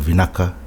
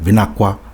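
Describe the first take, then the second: First: The k sound is said plainly. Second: The k sound is followed by a w sound. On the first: This is the common form. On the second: Some other villages' dialects say it this way.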